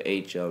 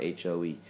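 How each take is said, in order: First: Letters H and O, one at a time; saying "H O" as two separate letters; spelled out H O. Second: Letters H, O, E, one at a time; saying "H O E" as three separate letters; spelled out H O E. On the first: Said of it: "the way to spell ... with just a regular H O". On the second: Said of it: "not a H O E". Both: Shown as a demonstration.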